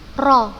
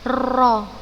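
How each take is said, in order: First: The r is trilled briefly, with slight vibration. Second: The r is trilled long, with many vibrations. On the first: The speaker calls it right. "tetap ada getarannya, tetapi tidak berlebihan" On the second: The speaker calls it wrong. "kita tidak boleh berlebihan dalam mentakrirkan huruf ro karena akan menyebabkan seperti mengucapkan huruf ro lebih dari sekali"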